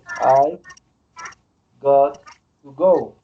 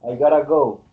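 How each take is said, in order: First: Got and to are said as separate words. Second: Got to is run together as gotta. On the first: "That is" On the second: "they say, I gotta go"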